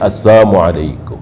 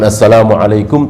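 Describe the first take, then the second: First: The greeting is pronounced in a twisted, altered form. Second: The greeting is pronounced in its standard full form. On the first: "Yahudi kalau memberikan salam diplesetkan"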